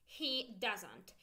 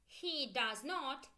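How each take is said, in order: First: Said in the usual way. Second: Slow, careful does not; full form he does not. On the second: Shown as a demonstration. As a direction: spell it out word by word. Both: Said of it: "So let's go".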